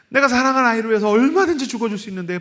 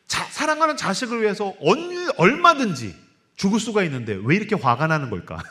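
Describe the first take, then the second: First: 얼마든지 pushed out fast and high through a laugh; laughing, fast and high, stress on 얼마든지. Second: Said in the usual way. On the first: Acted. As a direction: rush it with a laugh, 얼마든지 on top. Laughing rephrase of the line.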